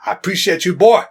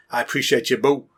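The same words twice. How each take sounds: First: Put-on louder and higher on boy; hearty shout. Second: Said in the usual way. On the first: Shown as a demonstration. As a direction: cheer him on loudly. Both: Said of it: "same words said twice".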